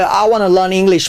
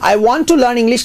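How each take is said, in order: First: Want to is run together quickly as wanna. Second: Want to is said in full, two words. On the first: "वो fast बोलते हैं" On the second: "की जगह"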